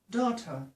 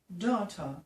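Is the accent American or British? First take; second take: British; British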